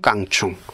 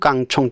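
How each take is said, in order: First: The second syllable has the vowel 'u'. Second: The second syllable has the vowel 'o'. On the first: This form breaks vowel harmony. The speaker calls it right. "충할 때는 우잖아요" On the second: This form follows vowel harmony. The speaker calls it wrong. "총할 때 오"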